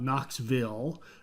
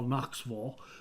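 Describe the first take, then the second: First: The second syllable is a full 'vil' sound. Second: The second syllable is a reduced 'vul' sound. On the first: The speaker calls it wrong. "It is not Knoxville" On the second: The speaker calls it right. "V U L"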